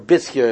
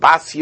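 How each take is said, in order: First: The first syllable has an 'i' vowel. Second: The first syllable has an 'a' vowel. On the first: The speaker calls it right. "if you pronounce it correctly" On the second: The speaker calls it wrong. "It was called Basya"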